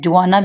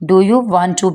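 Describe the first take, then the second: First: The words run together quickly into one word. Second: Each word is said separately and in full.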